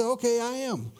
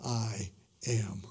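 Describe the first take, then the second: First: High, offhand read of "Okay, I am"; blown past casually. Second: "I am" low and soft, each word set apart; weighty, powerful. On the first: Preacher showing how readers skim the words, offhand. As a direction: toss off "I am" as if it meant nothing. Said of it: "so easy ... to blow past". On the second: Preacher showing the power of Jesus' two words, weighty. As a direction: let "I am" land low, slow and grave. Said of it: "the power of those two words". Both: Shown as a demonstration.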